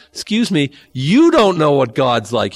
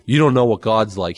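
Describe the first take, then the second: First: YOU drawn out and hit loud; slow, raised retort leaning hard on "you"; indignant correction. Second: Said in the usual way. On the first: Acted. Jesus correcting the Pharisees, indignant with a loud stress on "you". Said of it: "is wh-, how he says it".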